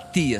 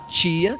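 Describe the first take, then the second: First: The word begins with a plain t sound. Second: The word begins with a ch sound. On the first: This is not how a Minas Gerais speaker says it. The speaker calls it wrong. "Que você nunca vai falar tia" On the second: This is how a Minas Gerais speaker says it. The speaker calls it right. "você vai falar tia"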